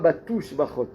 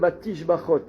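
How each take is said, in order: First: The second syllable has a 'u' vowel. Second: The second syllable has an 'i' vowel. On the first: The speaker calls it wrong. "Et pas batouche bachot" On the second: The speaker calls it right. "Et l'autre c'est melech meulal batish bachot"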